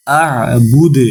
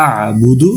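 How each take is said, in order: First: "আ'বুদ," ending on a bounced d, no u; stopping form. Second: "আ'বুদু," ending on a short u; non-stopping form. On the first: Teacher showing learners the pause, "আ'বুদ," closed on d. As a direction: stop "আ'বুদ," on the d. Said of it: "এখানে ওয়াকফ করলে হবে". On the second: Teacher showing learners joined reading, "আ'বুদু," ending in u. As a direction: finish "আ'বুদু," with an open u. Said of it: "আর যদি ওয়াকফ না করি তাহলে হবে". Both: Shown as a demonstration.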